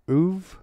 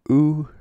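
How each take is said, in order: First: The syllable ends with a v sound. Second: The syllable ends on a bare vowel. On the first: The speaker calls it wrong. "Not uv" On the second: The speaker calls it right. "U. Not uv"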